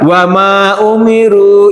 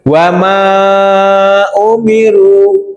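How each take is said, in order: First: The vowel is stretched for about two beats. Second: The vowel is stretched for about four beats. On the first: This follows a less common reading. "kalau yang dua harokat" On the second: This follows the most widely used reading. "wamanya dibaca empat harokat karena ketemu hamzah"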